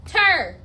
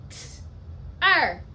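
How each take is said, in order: First: Said in the usual way. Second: "T. Er" as a bare t, a pause, then a firm er; segmented sounds. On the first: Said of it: "Pound it". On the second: Shown as a demonstration. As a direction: split "T. Er" into two isolated phonemes. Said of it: "Two phonemes".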